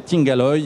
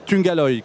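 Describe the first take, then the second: First: The first vowel sounds like 'i'. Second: The first vowel sounds like 'u'. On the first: The speaker calls it wrong. "moi, je disais Tingaloy" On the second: The speaker calls it right. "m'a corrigé"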